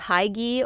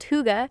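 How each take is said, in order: First: It is said the way English spelling suggests. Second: It is said with the Danish pronunciation. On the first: The speaker calls it wrong. "that's how I used to pronounce it" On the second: The speaker calls it right. "it's actually pronounced hygge"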